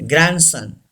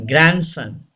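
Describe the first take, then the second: The two takes are said the same way.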